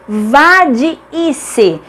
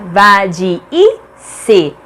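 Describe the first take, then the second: First: "vadice" slowly, split as va-di-i-ce; syllable by syllable. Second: "Vadice" in pieces, pause before the last "ce"; syllable by syllable. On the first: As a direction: sound out "vadice" with the double i held apart. ("vadice" devagar e silabado: va-di-i-ce) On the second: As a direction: break "Vadice" up as va-di... i... ce. ("Vadice" silabado, com pausas: va-di... i... ce) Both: Shown as a demonstration. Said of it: "Cada uma fica em uma sílaba diferente".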